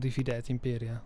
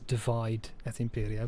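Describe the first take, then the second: First: Divide is said with Latin vowels, like dee-vee-deh. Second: Divide is said like the English word divide.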